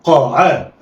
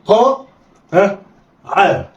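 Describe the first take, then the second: First: قا عا snatched together; blended quickly. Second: قا and عا each alone with pauses; letters read separately. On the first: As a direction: run قا and عا into one. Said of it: "يلا، اخطف". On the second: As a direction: sound out قا then عا. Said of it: "بقول إيه؟". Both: Shown as a demonstration.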